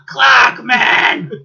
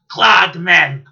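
First: Louder, higher yell of the phrase; higher shouted catchphrase. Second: Loud barked quote; shouted catchphrase. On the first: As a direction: push it up and shout. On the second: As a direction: belt it out. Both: Retold or imitated.

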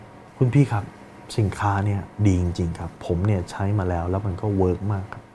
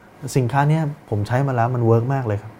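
First: Confident. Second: Acted unsure sales pitch; unconfident. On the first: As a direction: pitch it to a customer with calm certainty. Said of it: "ดูมั่นใจไหม?". (น้ำเสียงมั่นใจ หนักแน่น) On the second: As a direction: sell it as if you doubt yourself. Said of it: "มันดูไม่มั่นใจ เห็นปะ?". (น้ำเสียงไม่มั่นใจ ลังเล) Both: Shown as a demonstration.

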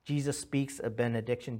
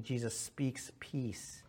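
First: Said in the usual way. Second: Whispered. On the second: Shown as a demonstration. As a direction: whisper it like a blessing.

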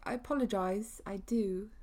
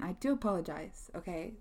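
First: A clumsy mock British accent on the apology; jokey fake British accent; bad British accent. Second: Said in the usual way. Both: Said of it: "That was a really bad British accent".

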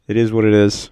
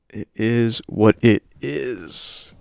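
First: Said in the usual way. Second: Very slow, stretched-out words; drawn out. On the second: Real, not acted. Host resigned to his bad impressions, drawing it out. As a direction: drag out each word of the catchphrase.

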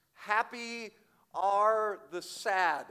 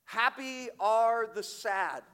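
First: Slow, weighted "Happy are the sad"; first slow take of "Happy are the sad"; stressed quote. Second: Higher, louder "Happy are the sad" with "are" leaned on; second, stronger take of "Happy are the sad"; emphatic repeat. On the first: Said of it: "as one said". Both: Shown as a demonstration.

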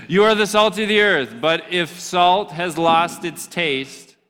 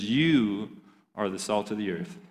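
First: Louder, higher, punchy reread of the verse; preacher voice fired up again; energetic restart. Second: Flat, soft first reading of the verse; subdued scripture reading; low-energy reading. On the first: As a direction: bring the energy back into the verse. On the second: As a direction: read it quietly, almost to yourself. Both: Shown as a demonstration. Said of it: "listen, bring it back".

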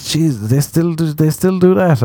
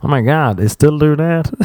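First: High-pitched Irish disbelief; incredulous question in Irish accent, pitched up. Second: High, hammed-up American accent; badly faked American disbelief. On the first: Retold or imitated. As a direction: retell his shock in an Irish accent. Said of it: "I'm doing an Irish accent". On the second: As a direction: do a terrible American accent, pitched up. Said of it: "That was the worst American accent".

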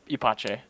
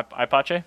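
First: [name] starting like "ee", ending "pah-chay"; [name] with E sound. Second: [name] starting like "eye", ending "pah-chay"; [name] with long I. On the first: Adopting the co-host's correction, [name] said "ee-pah-chay". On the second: Unsure of the Jaguar's name, [name] said "eye-pah-chay". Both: Shown as a demonstration. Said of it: "I is pronounced E".

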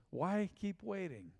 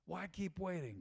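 First: Drawn out, each word weighed; slow urging question. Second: Much softer, almost under the breath; soft repeat. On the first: Pastor pressing the congregation, slow and deliberate. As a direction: ask it slowly, letting it land. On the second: Pastor repeating to the congregation, hushed and softer. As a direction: let the echo fall quiet and searching. Repeated question, dropped to near hush. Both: Acted.

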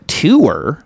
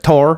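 First: "Tour?" said as toor, incredulous; "Tour?" echoed as tuur, falling; questioning "Tour?". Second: "Tour." said as tore, rhymes with door; "Tour." flat American tore. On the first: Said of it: "she's like". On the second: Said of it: "She's like". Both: Retold or imitated.

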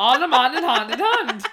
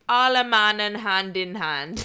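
First: Alle mannen hand in hand tried in clumsy Dutch, loud; attempted Dutch. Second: Alle mannen hand in hand in Dutch, laughing; Dutch pronunciation. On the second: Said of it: "I think you nailed it". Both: Shown as a demonstration.

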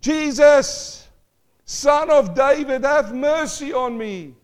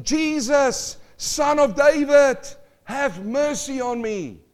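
First: Much higher and louder, slow desperate cry. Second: Loud, high, slow cry for mercy; blind man crying out. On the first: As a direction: cry out even harder than before the crowd. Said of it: "he cried out aloud more". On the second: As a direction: call out across the crowd, slow and high. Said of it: "And he cried out". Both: Acted.

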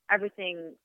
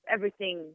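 No difference in how they are said.

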